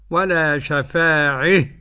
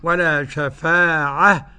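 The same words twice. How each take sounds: First: The final vowel is fronted toward e. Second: The final vowel is an open a sound. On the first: "والإمالة بعد" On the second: "له الفتح الأول"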